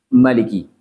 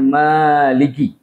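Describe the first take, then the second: First: The vowel after the m is short. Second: The vowel after the m is long.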